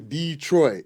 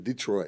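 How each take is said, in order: First: It is said the way outsiders say it. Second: It is said the way locals say it. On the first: This is how people from elsewhere say it. The speaker calls it wrong. "We don't say Detroit" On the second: This is how people from the city say it. The speaker calls it right. "we Detroiters say Detroit"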